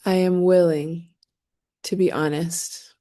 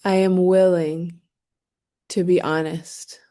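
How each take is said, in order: Both takes have the same delivery.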